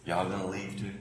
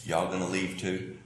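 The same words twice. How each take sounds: First: Much softer Southern "Y'all gonna leave too?"; hushed Southern drawl. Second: Quiet, low Southern "Y'all gonna leave too?"; Jesus asks the disciples gently, in a Southern drawl; soft Southern drawl. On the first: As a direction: let it fall almost to a murmur, Southern style. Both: Retold or imitated. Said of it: "in my Southern way".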